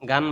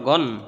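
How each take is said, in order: First: The vowel is an open, a-like sound. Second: The vowel is a rounded, o-like sound. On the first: The speaker calls it wrong. "গান বলা যাবে না" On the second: The speaker calls it right. "গন দুই জবর গন"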